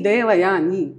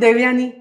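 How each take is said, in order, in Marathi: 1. प्रत्येक ध्वनी पूर्ण आणि काळजीपूर्वक उच्चारलेला आहे. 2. नाव पटपट आणि ढिलेपणाने म्हटले आहे. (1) "तो मी देवयानी असाच केला पाहिजे" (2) "असं मराठीमध्ये आपण सहज म्हणून टाकतो"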